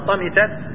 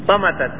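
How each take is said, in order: First: The vowel after the m is 'i'. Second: The vowel after the m is 'a'. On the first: "والكسر" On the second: "بالفتح"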